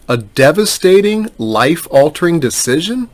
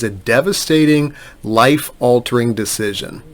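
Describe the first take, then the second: First: Higher, questioning repeat with a rising end; incredulous echo. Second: Said in the usual way. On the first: Retold or imitated. Lawyer challenging an adviser's dire claim, incredulous. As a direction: throw the phrase back as a doubting question.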